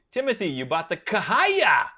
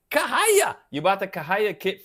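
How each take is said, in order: First: Said in the usual way. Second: Kahaya squealed very high with a rising lilt; high, louder delighted echo of Kahaya; amazed. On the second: Real, not acted. Echoes brand name in delight.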